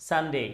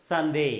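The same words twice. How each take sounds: No difference in how they are said.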